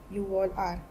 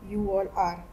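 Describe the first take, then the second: No difference in how they are said.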